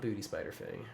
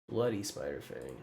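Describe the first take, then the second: First: Booty said with a t sound, quieter; repeating the Freudian slip booty; quoting his own slip. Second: Bloody said clearly with a crisp d; fixing a slip: Bloody, not booty; corrected careful pronunciation. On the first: Retold or imitated. Streamer mocking his own slip, soft booty. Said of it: "Oop, not booty". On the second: Shown as a demonstration. Streamer correcting himself to viewers, clear Bloody. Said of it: "not booty Spider Fang".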